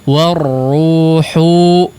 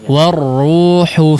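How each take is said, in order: First: The final vowel is drawn out long. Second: The final vowel is kept short. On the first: The speaker calls it wrong. "jangan dipanjangkan. Warruhu enggak" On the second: The speaker calls it right. "hu-nya pendek ya"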